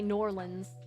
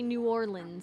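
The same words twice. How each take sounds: First: It is said in a strongly local way. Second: It is said in a more local way. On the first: It sounds very authentic to the place. "if you want to be really authentic" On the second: It sounds authentic to the place. "if you actually want to be like authentic"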